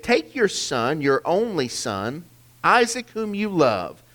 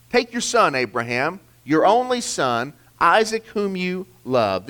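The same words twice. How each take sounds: First: Said in the usual way. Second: "Take" lifted high and hit hard, each name pressed in turn; emphatic, higher reading. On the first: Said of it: "Three, three names". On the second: Shown as a demonstration. Preacher stressing God's command to Abraham, emphatic. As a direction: lean on "Take your son" and every name after it. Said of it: "This is very emphatic".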